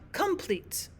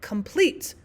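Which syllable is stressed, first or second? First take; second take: first; second. First: The stress is on the first syllable. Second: The stress is on the second syllable. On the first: The speaker calls it wrong. "not complete" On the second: The speaker calls it right. "we would stress the second syllable"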